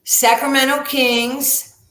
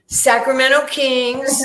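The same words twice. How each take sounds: First: High, loud and slow, puffed up with pride; proud announcement. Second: The repeat is even louder, high and drawn out; proud repeated announcement. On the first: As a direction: announce "Sacramento Kings" like a ring introduction. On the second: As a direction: hammer home "Sacramento Kings" a second time. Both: Retold or imitated. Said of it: "And I went".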